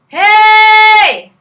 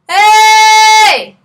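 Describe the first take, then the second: First: A clearly audible breathy h starts the word. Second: No audible h; the vowel starts directly. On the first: "you'll hear the H easily" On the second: "I don't want to hear the H"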